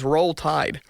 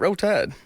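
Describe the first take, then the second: First: Roll is said with a clear L sound. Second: Roll is said like 'row', with no L. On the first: Nobody really says it this way. The speaker calls it wrong. "Nobody says Roll Tide" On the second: This is how locals really say it. The speaker calls it right. "R O W T Y D E. ... that's how you say it"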